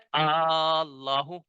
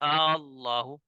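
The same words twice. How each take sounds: First: The second hamza becomes a fully lengthened long vowel. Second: The second hamza is softened, between hamza and alif. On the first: "तो औ औला क्या है?" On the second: "तस्हील क्या है?"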